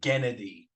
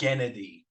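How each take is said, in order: First: The name is said with three syllables. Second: The same.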